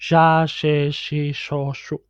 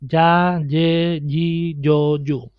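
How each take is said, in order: First: The syllables start with an Argentinian sh sound. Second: The syllables start with a y sound.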